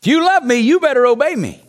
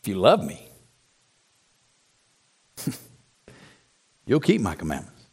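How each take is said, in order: First: Demanding "you better obey me", pitched up on LOVE; stress on obeying. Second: Very low, soft and unforced, with long pauses; gentle, loving emphasis. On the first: Preacher repeating the verse as he misheard it, demanding. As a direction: press it as a condition to be met. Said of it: "Emphasis on obeying him". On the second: Preacher showing what Jesus really said, gently. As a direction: let "love me" carry it and drop "keep my commandments" gently. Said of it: "Here's what he said". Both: Retold or imitated.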